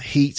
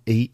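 First: The word begins with an h sound. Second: The word begins without an h sound.

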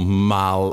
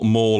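First: The vowel sounds like the one in 'Alan'. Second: The vowel sounds like the one in 'balls'. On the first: "Mal as in Alan" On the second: "Mall as in balls"

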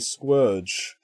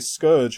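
First: The name is said as 'Squirge'. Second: The name is said as 'Scourge'. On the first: This is how the characters say the name. The speaker calls it right. "they all say Squirge" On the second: This is how fans usually say the name. The speaker calls it wrong. "We've been calling him Scourge wrongly for years"

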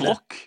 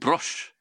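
First: The name ends with a k sound. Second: The name ends with an sh sound. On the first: The speaker calls it right. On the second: The speaker calls it wrong. "Det er ikke Brosh"

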